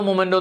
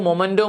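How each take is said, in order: First: The first syllable has an 'o' vowel. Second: The first syllable has an 'o' vowel.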